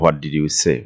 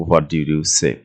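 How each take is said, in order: First: Slow, careful teacher's model of the question; slow model reading. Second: Said in the usual way. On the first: Shown as a demonstration. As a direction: spell it out slowly for learners. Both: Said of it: "past tense-এ আমরা এটা ব্যবহার করেছি".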